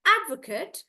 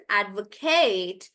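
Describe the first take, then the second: First: "advocate" stressed on AD, short "kut"; "advocate" as "AD-vuh-kut"; noun pronunciation. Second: "advocate" with stretched "KATE"; "advocate" as "ad-vo-KAYT"; verb pronunciation. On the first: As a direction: hit AD in "advocate". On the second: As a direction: draw out the end of "advocate". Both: Shown as a demonstration. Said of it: "noun versus verb".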